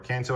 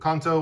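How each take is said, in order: First: Kanto is pronounced in an English way. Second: Kanto is pronounced in a Japanese way.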